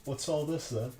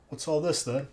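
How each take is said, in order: First: Mock British accent. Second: Lightly done British accent, mocking a meme; a quick jokey British "What's all this then?". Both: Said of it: "making fun of, like, the British accent".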